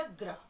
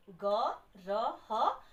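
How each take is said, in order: First: "ग्रह" with ग cut short and run into र; "ग्रह" joined up, gr as one cluster; half ग, blended. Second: "ग र ह" slowly, each a full separate syllable; "ग र ह" spaced out, a full vowel on each; separate letter sounds. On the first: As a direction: blend "ग्रह" into one word, no vowel after ग. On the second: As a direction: sound out "ग र ह" one letter at a time. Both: Shown as a demonstration. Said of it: "तो ग का आधा उच्चारण होना है".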